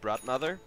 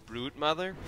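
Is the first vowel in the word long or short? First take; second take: short; long. First: The first vowel is short and quick. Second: The first vowel is long and drawn out. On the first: This is how the speaker says it. "with like the quick Brod" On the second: This is how many other people say it. "for a lot of people, it's Brood"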